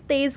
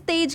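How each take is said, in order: First: तेज said with a z, "tez"; तेज with a z sound, meaning fast; nukta z, meaning speed. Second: तेज said with a hard j, "tej"; तेज ending on a clear j sound, no nukta; तेज with a hard j, meaning radiance; plain j, meaning glow. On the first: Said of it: "इस तेज का मतलब होता है गति". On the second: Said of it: "इस तेज का मतलब होता है चमक". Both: Shown as a demonstration.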